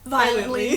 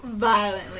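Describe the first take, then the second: First: The word is said casually and offhandedly. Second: The word is said intensely and dramatically.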